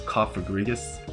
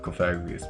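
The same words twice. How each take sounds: First: The first syllable sounds like coffin. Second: The first syllable does not sound like coffin. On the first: "the correct pronunciation for Cofagrigus is Cofagrigus because it's supposed to be like coffin" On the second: "but I like Cofagrigus better. It just flows more naturally on the tongue"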